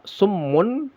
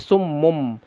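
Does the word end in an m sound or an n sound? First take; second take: n sound; m sound. First: The word ends with an n sound. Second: The word ends with an m sound. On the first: The speaker calls it wrong. "tidak dibaca sum summun" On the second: The speaker calls it right. "tapi summum"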